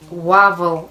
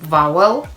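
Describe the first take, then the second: First: The word begins with a rounded W sound. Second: The word begins with a buzzing V sound. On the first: The speaker calls it wrong. "vowel instead of" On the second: The speaker calls it right. "instead of vowel"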